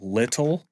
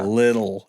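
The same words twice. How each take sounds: First: The middle consonant is crisp and clearly released. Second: The middle consonant is soft and voiced. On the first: This is the careful form the region does not use. The speaker calls it right. "We don't know how to say like double consonants like little" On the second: This is how the speaker's own region says it. The speaker calls it wrong. "We say"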